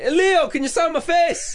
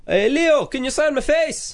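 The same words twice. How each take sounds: First: Much higher, slower mock Scottish lady; a second go at a Scottish accent, pitched up high. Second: Put-on a shaky try at a Scottish accent, pitched up high; attempted Scottish accent. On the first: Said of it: "Oh, Scottish". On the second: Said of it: "Can you do that in a Scottish accent?".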